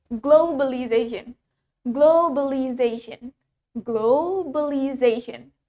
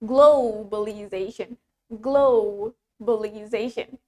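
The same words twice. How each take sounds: First: Globalization with a plain American "glow"; American-accented globalization; American pronunciation. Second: Globalization with a drawn-out, rounded "glo"; low British "glo" in globalization; British pronunciation. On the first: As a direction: say "globalization" evenly, American style. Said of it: "In American English". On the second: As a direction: stretch the first syllable of "globalization", British style. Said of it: "in British English, we pronounce it as". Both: Shown as a demonstration.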